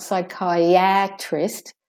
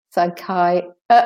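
First: "psychiatrist" as sy-kai-AT-rist with a full flat a as in cat; wrongly full A. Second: "psychiatrist" as sy-KAI, uh, trist; de-stressed A. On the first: Teacher showing learners the mistake, "psychiatrist" with clear A. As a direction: give the A in "psychiatrist" a full slow vowel. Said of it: "It's not psychiatrist". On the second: Teacher correcting learners, "psychiatrist" with schwa for A. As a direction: reduce the A in "psychiatrist" to a separate weak uh. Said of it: "The A is de-stressed". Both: Shown as a demonstration.

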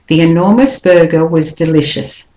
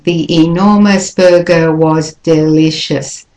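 First: "enormous" lifted, "was" reduced in "The enormous burger was delicious"; connected melody, light quick "was" before "delicious"; smooth English rhythm. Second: Every word of "The enormous burger was delicious" equally stressed; even, separated beats with no melody on "enormous burger"; wrong, unsmoothed rhythm. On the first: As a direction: flow through, stressing "enormous" and de-stressing "was". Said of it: "You need to smooth it". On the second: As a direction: say "was" in full, syllable by syllable. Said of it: "That is not English melody and rhythm".

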